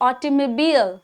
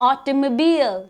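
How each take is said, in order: The two takes are said the same way.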